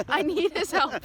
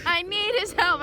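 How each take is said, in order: First: Pleading. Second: Louder pleading. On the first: Pleading to teacher, then repeated. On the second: Student begging the teacher to reseat her, louder, higher desperate plea. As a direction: repeat "I need his help" higher and louder, more desperate. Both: Retold or imitated.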